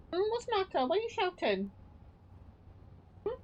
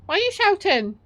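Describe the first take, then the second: First: High and much softer cooing; soft pet talk. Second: High pet voice, fairly loud; pet talk. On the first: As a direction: hush the cat with a high soft voice. Soothes her cat. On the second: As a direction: coo at the cat with a raised voice. Talks to her cat. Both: Real, not acted.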